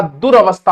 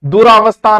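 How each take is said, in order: First: दुरवस्था with short ra, du-ra-vas-thaa; correct pronunciation. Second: Loud दुरावस्था with long raa; wrong pronunciation. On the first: Teacher giving the correct word, careful pronunciation. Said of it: "दुरवस्था होता है". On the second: Teacher showing students the mistake, mispronounced demo. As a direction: say दुरावस्था, punching a stretched रा. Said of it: "दुरावस्था नहीं होता". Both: Shown as a demonstration.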